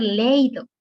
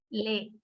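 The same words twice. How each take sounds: First: "leído" mispronounced as "léido", stress on the e; wrong diphthong. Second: "leído" broken into syllables, the í stressed; stressed hiatus. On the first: Teacher showing what it could not be, "leído" said wrongly as LEI-do. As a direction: run e and i together in "leído", loud, as LEI-do. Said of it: "No podría ser leído". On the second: Teacher showing students where the accent must go, í stressed and separated in "leído". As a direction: split "leído" slowly into le-í-do, leaning on í. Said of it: "tiene que ser". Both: Shown as a demonstration.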